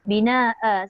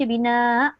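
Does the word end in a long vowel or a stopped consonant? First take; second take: long vowel; stopped consonant. First: The word ends with a lengthened final vowel sound. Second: The word ends abruptly on a stopped glottal consonant. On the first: The speaker calls it right. "dia kena bunyikan uh" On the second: The speaker calls it wrong. "dia mati hamzah"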